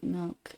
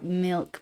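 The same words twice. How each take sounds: First: "milk" softly, toward "melk"; lazy Utah vowel. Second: Said in the usual way. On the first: Shown as a demonstration. Contrasting with standard "milk", lazy vowel. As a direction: let the i in "milk" sag to eh. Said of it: "but like milk". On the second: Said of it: "Not like milk".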